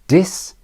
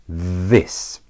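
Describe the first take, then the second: First: The word begins with a d sound. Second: The word begins with a voiced th sound. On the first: "the old way with a d sound first" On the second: "the new way with the voiced th"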